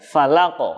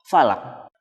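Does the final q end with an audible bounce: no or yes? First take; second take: yes; no. First: The final q ends with an audible bounce. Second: The final q ends without an audible bounce. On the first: The speaker calls it right. "Harus ya" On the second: The speaker calls it wrong. "tidak terdengar bunyi pantulannya"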